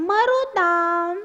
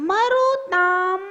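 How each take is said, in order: The two takes are said the same way.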